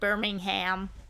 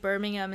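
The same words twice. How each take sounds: First: It is pronounced with a North American accent. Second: It is pronounced with an English accent. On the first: "instead of Birmingham" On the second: "you're becoming more English because you're saying Birmingham"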